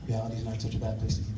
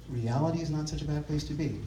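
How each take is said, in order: First: Fast, lower repeat of the line; fast, lower restatement to close; quick echo. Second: Soft, unhurried closing thought; quiet, sincere first saying. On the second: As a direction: let it land gently, with a pause before it. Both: Shown as a demonstration.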